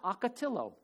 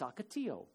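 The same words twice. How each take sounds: First: The word is said the way outsiders say it. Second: The word is said the way locals say it. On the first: The speaker calls it wrong. "It's not ocotillo" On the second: The speaker calls it right. "the proper way to say some words"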